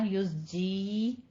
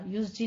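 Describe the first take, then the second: First: The vowel after 'z' is long. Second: The vowel after 'z' is short. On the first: The speaker calls it right. "या मद्दा करनी है" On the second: The speaker calls it wrong. "युज़्जी नहीं करना"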